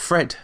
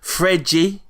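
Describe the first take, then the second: First: The name is said with one syllable. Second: The name is said with two syllables. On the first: The speaker calls it wrong. "Apparently it's not Fred" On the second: The speaker calls it right. "I'm going for proper pronunciation here"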